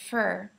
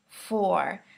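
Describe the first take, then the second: First: The word has a weak, reduced vowel. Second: The word has its full vowel.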